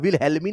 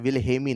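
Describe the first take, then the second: First: The middle L sound is pronounced. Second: The middle L sound is silent. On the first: The speaker calls it wrong. "नहीं नाम है" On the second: The speaker calls it right. "एल silent है"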